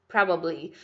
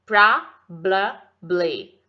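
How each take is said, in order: First: Said in the usual way. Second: "probably" broken into three long, loud syllables; slow, loud drill of "probably", each syllable apart. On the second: Shown as a demonstration. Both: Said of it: "quanto mais devagar eu falo".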